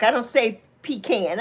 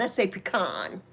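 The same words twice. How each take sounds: First: "pecan" said PEE-can, rejected version. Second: "pecan" said puh-KAHN, softer. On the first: New Yorker rejecting the other version, "pecan" as PEE-can. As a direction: say "pecan" with long EE, then can. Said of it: "I'm from New York". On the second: New Yorker stating her own version, "pecan" as puh-KAHN. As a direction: drop softer and say "pecan" with open AH at the end. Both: Shown as a demonstration.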